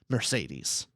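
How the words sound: The name is said with an English pronunciation. The speaker calls it wrong. "a lot of the English audiobooks, they're going to say"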